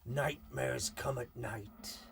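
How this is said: It is said in a rustic farmyard accent.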